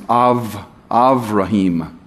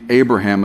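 First: The second consonant is a V sound. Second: The second consonant is a B sound. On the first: This is how it is said in Hebrew. The speaker calls it right. "you will not hear B's, you'll hear V's" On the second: This is the westernized English form. The speaker calls it wrong. "You won't be Abraham"

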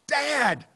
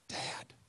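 First: The word is yelled at full volume. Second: The word is said softly and quietly. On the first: "she has to resort to yelling" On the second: "so I always start off with"

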